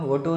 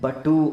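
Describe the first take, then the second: First: The word begins with a V sound. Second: The word begins with a B sound. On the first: This is the standard Sanskrit form. "ವಟು ಅನ್ನೋ ಬದಲಿಗೆ" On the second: This is how people from West Bengal say it. "ಬಟು ಅಂತೇಳಿ ಕರೀತಾರೆ"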